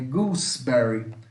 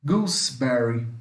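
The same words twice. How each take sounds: The two takes are said the same way.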